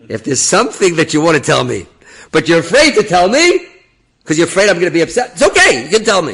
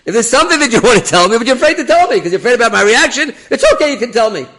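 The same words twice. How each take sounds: First: Loud, raised voice, pressing each phrase; forceful urging. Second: Very high, loud, pushy rush of words; insistent repeat. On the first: Rabbi urges officer at the gate, forceful and loud. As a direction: press him loudly to speak up. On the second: Rabbi repeats himself to the officer, insistent high shout. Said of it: "I'll repeat myself". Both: Retold or imitated.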